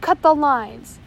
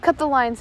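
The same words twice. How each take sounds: First: Full loud bellow, even harder; louder bellowed order. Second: Loud bellowed order. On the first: First mate repeating his order to the crew, louder bellow. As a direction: roar the order again, louder. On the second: First mate ordering his crew, loud bellow. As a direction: bark it out loud. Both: A narrator's reading. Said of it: "he bellowed".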